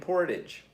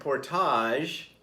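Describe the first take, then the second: First: The ending sounds English, like 'idge'. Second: The ending sounds French, like 'ahzh'. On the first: The speaker calls it right. "It's Main and Portage. They don't go the Aj" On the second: The speaker calls it wrong. "I thought it was Main and Portage, but apparently in Winnipeg, that's not how you say it"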